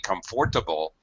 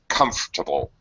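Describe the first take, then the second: First: The word is said with all four syllables. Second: The word is said with one syllable dropped. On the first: The speaker is not a native speaker. The speaker calls it wrong. "if you say comfortable, all English speakers will instantly know that you're not a native speaker" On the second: The speaker sounds like a native speaker. The speaker calls it right. "It's comfortable"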